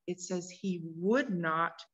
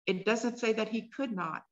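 First: Slow, leaning hard on "would" in "would not"; stress on would. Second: Said in the usual way. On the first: Shown as a demonstration. Preacher contrasting would with could, slowly stressing "would".

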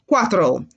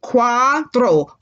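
First: Said in the usual way. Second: "Cuatro" drawn out as cua, tro; stretched teaching version of "Cuatro"; syllable by syllable. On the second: Shown as a demonstration. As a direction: say "Cuatro" slowly, "tro" like "throw". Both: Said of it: "Like you're throwing something".

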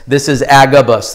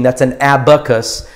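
First: Agabus said AG-uh-bus with a hard g; Agabus, set apart from abacus; Agabus stressed. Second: Abacus with a clear b, AB-uh-kus; abacus, plainly pronounced. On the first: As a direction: lean on the first syllable of Agabus. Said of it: "completely different thing". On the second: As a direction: say abacus as the counting frame. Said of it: "not talking about the little math counting machine". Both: Shown as a demonstration.

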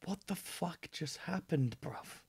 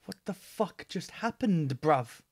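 First: Quiet, far-off disbelief; stunned mutter. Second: Said in the usual way. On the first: Real, not acted. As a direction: mutter it under your breath, stunned. Stunned reaction after album ends.

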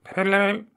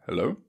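First: Higher, louder hello down a bad line; loud calling hello. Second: Said in the usual way. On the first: Real, not acted. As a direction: call out over bad reception. Phone call with bad reception.

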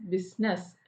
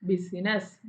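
First: ബിസിനസ് said as BIZ-ness; two-syllable pronunciation. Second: ബിസിനസ് said as bi-si-nes; three-syllable pronunciation. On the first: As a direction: drop the middle vowel of ബിസിനസ്. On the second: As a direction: sound the middle vowel in ബിസിനസ്. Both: Shown as a demonstration. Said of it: "ബി ആണല്ലോ stress".

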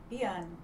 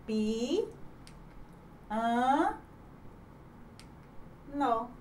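First: Said in the usual way. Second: "pi, an, no" with long pauses between syllables; separated syllables. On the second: Shown as a demonstration. Teacher demonstrating a hiato on piano, separated syllables. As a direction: isolate each syllable of "pi, an, no". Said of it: "pronunciadas em sílabas diferentes".

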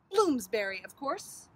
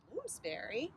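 First: BLOOMSBURY hit loud with a falling tune; emphatic statement. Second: Bloomsbury softer, rising at the end; puzzled question. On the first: Sister names her perfect place, stating Bloomsbury as obvious. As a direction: state Bloomsbury firmly, punched at the front. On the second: Sibling has never heard of it, asking Bloomsbury as a question. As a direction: query Bloomsbury with a rising tune. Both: A narrator's reading.

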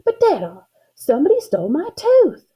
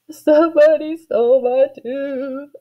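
First: High, upset little cry of protest; indignant shout. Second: High, drawn-out slow wail; sobbing. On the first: Girl complaining to Dada about her tooth, indignant shout. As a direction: protest loudly, pitch climbing high. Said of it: "I kind of shouted". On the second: Girl crying to her gathered family, sobbing. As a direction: wail it through mock tears. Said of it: "I sobbed". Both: A narrator's reading.

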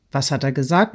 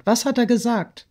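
First: Said in the usual way. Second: High, urgent asking; insistent question. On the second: A narrator's reading. Friend asking what the lover said, insistent. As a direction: press the question with raised pitch. Sonja repeats her question, pressing.

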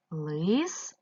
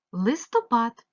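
First: "Листопад" in three drawn-out, separate syllables; split into syllables. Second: Said in the usual way. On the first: Shown as a demonstration. Teacher dividing a word for pupils, syllable by syllable. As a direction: pause after each syllable of "Листопад". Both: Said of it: "поділити ці слова на склади".

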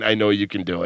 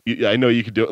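First: Ominous. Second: Said in the usual way. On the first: Retold or imitated. Lead robber to the mom at the safe, low and ominous. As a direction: say it like a veiled threat. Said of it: "but ominously saying". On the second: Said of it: "Like, but ominously saying".

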